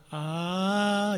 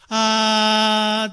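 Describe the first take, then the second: First: The sound starts softly and builds up gradually. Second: The sound starts with a sharp attack and holds. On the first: The speaker calls it wrong. "あーじゃなくて" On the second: The speaker calls it right. "ストンと上がってずっと持続する"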